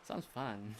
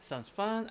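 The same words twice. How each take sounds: First: Softer, falling "sounds fun"; subdued reaction. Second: Perky reaction. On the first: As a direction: let "fun" drop away, understated. Same option repeated, subdued. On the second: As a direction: lift the pitch on "fun", lightly upbeat. Reacting to dialogue option, first take. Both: Acted.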